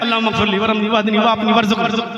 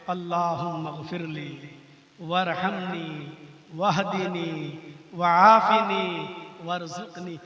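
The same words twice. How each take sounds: First: It is said carelessly, as if joking. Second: It is said humbly, as a sincere plea.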